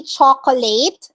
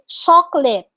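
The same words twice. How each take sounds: First: Chocolate said as "cho-ko-late"; chocolate mispronounced as spelt; wrong pronunciation demo. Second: Chocolate said as "chok-lit"; chocolate modeled with the middle vowel dropped; correct pronunciation demo. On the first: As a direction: say chocolate in three syllables, ending like late. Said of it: "You don't say chocolate". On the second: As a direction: say chocolate in two syllables. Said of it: "you say chocolate". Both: Shown as a demonstration.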